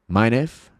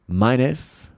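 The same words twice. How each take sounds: No difference in how they are said.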